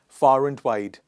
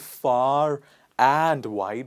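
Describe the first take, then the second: First: The word 'and' is reduced to a schwa. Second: The word 'and' is said in full. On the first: The speaker calls it right. "we say far and, far and wide" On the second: The speaker calls it wrong. "We don't say far and wide"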